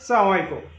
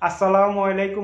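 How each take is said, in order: First: The greeting is clipped and run together. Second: The greeting is said slowly with every syllable. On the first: It is the greeting style picked up abroad. The speaker calls it wrong. "ওদের সালামের style" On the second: It is the clear greeting everyone can follow. The speaker calls it right. "আস্তে আস্তে ... এভাবে বলার জন্য"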